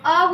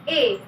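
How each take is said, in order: First: The vowel is a short, neutral 'uh'. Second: The vowel is a full, long 'ay'. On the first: The speaker calls it right. "उच्चारण ... अ अ होता है" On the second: The speaker calls it wrong. "ना कि ए"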